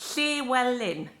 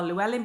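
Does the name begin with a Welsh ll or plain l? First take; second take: Welsh ll; plain l. First: It begins with the Welsh double L sound. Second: It begins with a plain English L sound. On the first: The speaker calls it right. "So you pronounce his name" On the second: The speaker calls it wrong. "Lots of people would say"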